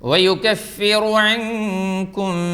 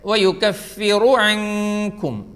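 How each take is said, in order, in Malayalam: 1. r-ന് പിന്നാലെ ഹ്രസ്വമായ u സ്വരാക്ഷരം വരുന്നു. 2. r-ന് പിന്നാലെ ഹ്രസ്വമായ u സ്വരാക്ഷരം വരുന്നു.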